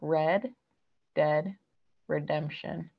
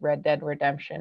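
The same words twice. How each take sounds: First: It is said more slowly and carefully. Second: It is said at normal conversational speed.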